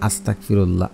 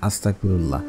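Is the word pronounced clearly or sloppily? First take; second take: sloppily; sloppily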